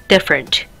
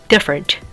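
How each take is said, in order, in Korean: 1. 강세 없는 가운데 모음은 약하고 줄어든 소리예요. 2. 강세 없는 가운데 모음은 약하고 줄어든 소리예요.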